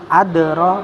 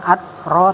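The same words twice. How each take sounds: First: The d sound is released with a slight bounce. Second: The d sound is cut off without release. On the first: The speaker calls it right. "dalnya qalqalah sugro" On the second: The speaker calls it wrong. "bukan adro"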